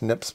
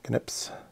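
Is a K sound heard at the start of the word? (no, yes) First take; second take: no; yes. First: The word begins with an N sound. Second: The word begins with a K sound.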